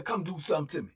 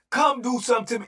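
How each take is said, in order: First: Daring them. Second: The dare repeated, higher and much louder; escalate, throw it harder. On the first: First dare. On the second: Repeating the dare to the pod, he shouts it harder. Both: Retold or imitated.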